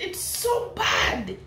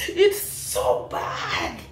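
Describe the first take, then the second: First: Said in the usual way. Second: Breathless laugh through the words; slow, almost-voiceless laughing disbelief; can't stop laughing at it. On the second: Real, not acted. Laughing at the comment.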